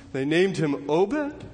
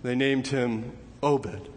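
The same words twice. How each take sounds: First: Slow question, "Obed" rising at the end; puzzled disbelief. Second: Said in the usual way. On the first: Acted. Listeners hearing the boy's name, puzzled. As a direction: query the name "Obed" with a drawn-out upward lift. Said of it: "And you're thinking". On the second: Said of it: "you hear a voice saying".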